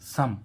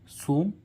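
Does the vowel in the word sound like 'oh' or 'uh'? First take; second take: uh; oh. First: The vowel is a short 'uh' sound. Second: The vowel is a long 'oh' sound. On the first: The speaker calls it right. "लेकिन इसको हम क्या पढ़ रहे हैं, सम" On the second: The speaker calls it wrong. "सोम नहीं पढ़ रहे"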